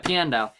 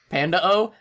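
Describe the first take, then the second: First: The name begins with "pee-an" sounds. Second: The name begins with "pan" like panda. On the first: The speaker calls it right. "I know that's not right. Yeah" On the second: The speaker calls it wrong. "I literally read that as Panda"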